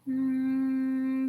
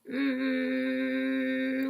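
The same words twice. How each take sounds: First: The hum is relaxed with extra air escaping. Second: The hum is pressed and tight with little air. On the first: Some of the air is wasted without vibrating the vocal cords. "une partie de l'air qui passe ... j'ai un son détendu" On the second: The muscles do the work, which is tiring. "si j'ai pas assez de souffle ... un son un peu trop serré"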